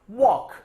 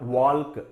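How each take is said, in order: First: The L sound is left silent in the word. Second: The L sound is pronounced in the word. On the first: The speaker calls it right. "It is walk" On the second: The speaker calls it wrong. "It's not walk"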